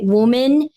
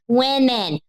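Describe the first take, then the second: First: It is said close to how it is spelled. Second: The first vowel sounds like the vowel in 'him'. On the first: The speaker calls it right. "maybe because it's spelled W O M E N" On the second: The speaker calls it wrong. "like some people say when they're talking in plural"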